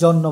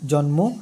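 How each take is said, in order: First: The n sound is doubled, no m heard. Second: The m sound is pronounced directly after n. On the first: The speaker calls it wrong. "জন্মের ক্ষেত্রে আপনি জন্ম বলতে পারবেন না, মানে নয়ের দ্বিতীয় উচ্চারণ" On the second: The speaker calls it right. "ম যখন একসাথে লাগানো থাকবে মটা সরাসরি উচ্চারণ হবে"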